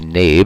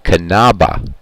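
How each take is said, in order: First: The name starts with a silent K. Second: The name starts with a sounded K. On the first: This is the anglicized pronunciation. "we'll use Nabe in English pronunciation" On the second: This is the original German pronunciation. "if we were to pronounce it properly in German, it would be Kanaba"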